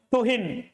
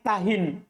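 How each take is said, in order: First: The first vowel is a 'u' sound. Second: The first vowel is an 'a' sound. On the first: Do not humiliate someone. "boleh untuk baca dom matanya" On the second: Do not become weak. "di fathah hatanya"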